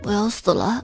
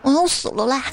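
First: It sounds heavy and grave. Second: It sounds coquettish and whiny.

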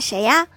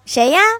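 First: It is said in a normal voice. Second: It is said in a raised voice.

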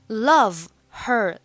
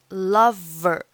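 First: The two words are said separately. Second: The two words run together without the h.

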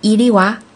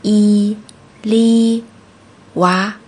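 First: It is said fast. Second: It is said slowly.

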